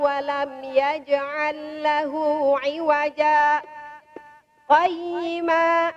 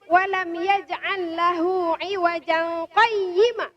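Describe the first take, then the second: First: A brief stop without a breath before 'qayyima'. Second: It runs into 'qayyima' without any pause. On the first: The verse is continued with a short pause. The speaker calls it right. "Berhenti tanpa mengambil nafas" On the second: It says something is both crooked and straight. The speaker calls it wrong. "kalau ini dilanjut tanpa berhenti"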